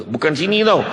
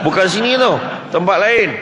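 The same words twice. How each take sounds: First: Said in the usual way. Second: Higher, louder repeat of Bukan sini tau; emphatic raised repeat; louder insist. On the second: Shown as a demonstration. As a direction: insist firmly, pushing it up.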